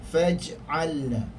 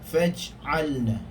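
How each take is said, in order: Both takes have the same delivery.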